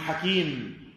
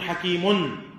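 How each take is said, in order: First: The word ends on a silent m, no n. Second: The word ends with an added n sound. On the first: The speaker is pausing at the end of the phrase. The speaker calls it right. "كلمة حكيم سكنتها قلت حكيم" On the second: The speech runs on without a pause. The speaker calls it wrong. "ما قلت عليم حكيم"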